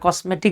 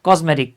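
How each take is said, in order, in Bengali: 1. মাঝের ব্যঞ্জনটি একটি হিসহিসে s ধ্বনি। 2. মাঝের ব্যঞ্জনটি একটি গুঞ্জনধর্মী z ধ্বনি। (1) "আপনারা কসমেটিক বলেন" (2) "কজ কজ জ, হ্যাঁ স না কিন্তু"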